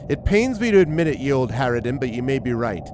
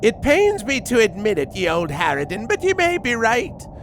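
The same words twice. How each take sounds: First: It is read in a weaker character voice. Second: It is read in a stronger character voice. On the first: The speaker calls it wrong. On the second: The speaker calls it right.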